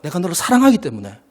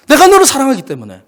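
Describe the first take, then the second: First: Said in the usual way. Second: Higher and louder, 너를 stressed; emphatic repeat. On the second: Shown as a demonstration. Preacher repeating God's love to the church, louder. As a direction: proclaim it again with force. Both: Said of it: "그 마음의 중심은 뭐다?".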